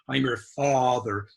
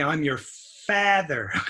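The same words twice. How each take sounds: First: The 'a' in father is deep and back. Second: The 'a' in father is fronted, Japanese-like. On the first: The speaker calls it right. "We say ... It's deep in the tongue for American A" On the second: The speaker calls it wrong. "We don't say"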